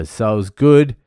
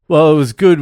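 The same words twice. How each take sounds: First: Said in the usual way. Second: Good pitched higher and louder with a rise; emphatic correction, good punched up high; stress on good. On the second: Shown as a demonstration. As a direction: hit good with relish.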